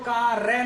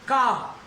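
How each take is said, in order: First: The word ends with a pronounced r sound. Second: The word ends on the vowel without r. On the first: The speaker calls it wrong. "वो कार रे नहीं है" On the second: The speaker calls it right. "आ पे रुक जाएगा"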